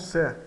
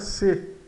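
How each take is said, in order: First: The vowel is said open. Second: The vowel is said closed. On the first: The speaker calls it wrong. "e não C" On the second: The speaker calls it right. "o E fechado nos monossílabos, então fica C"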